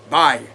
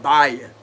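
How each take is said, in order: First: Bayou as bye plus a short ah; bayou pronounced. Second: Bayou said as two syllables, bye-uh; bayou pronounced. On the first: Reader teaching the word, bayou said like bye-ah. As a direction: bayou clipped to a quick bye-ah. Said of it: "like you saying bye". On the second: Tarot reader explaining the word, bayou said as bye-uh. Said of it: "some people say bayou". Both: Shown as a demonstration.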